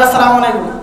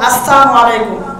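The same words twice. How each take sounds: First: The words of the greeting are slurred together. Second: Every word of the greeting is pronounced clearly. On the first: The speaker calls it wrong. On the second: The speaker calls it right.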